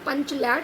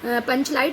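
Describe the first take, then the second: First: The last syllable is pronounced 'lait'. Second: The last syllable is pronounced 'light'. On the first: The speaker calls it wrong. "पंचलैट शब्द grammar की दृष्टि से गलत है" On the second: The speaker calls it right. "ग्रामर की दृष्टि से सही है"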